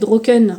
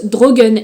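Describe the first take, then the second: First: The middle consonant sounds like a k. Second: The middle consonant sounds like a g. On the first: This is how it looks when first read. The speaker calls it wrong. "qu'on pourrait prononcer Droken de premier abord quand on le lit" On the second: This is how the book says it is pronounced. The speaker calls it right. "c'est écrit se prononce Drogen"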